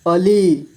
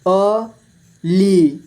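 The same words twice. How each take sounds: First: Said in the usual way. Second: अली split slowly into अ, ली; syllable by syllable. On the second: Shown as a demonstration. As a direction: stretch and separate अ and ली in अली. (अली को तोड़कर धीरे: अ, ली) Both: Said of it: "इस तरह से आपको".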